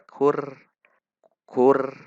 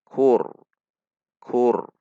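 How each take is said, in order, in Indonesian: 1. Bunyi r itu tipis dan ringan. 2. Bunyi r itu tebal dan berat. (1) "Itu tipis" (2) "maka ra dibaca tebal"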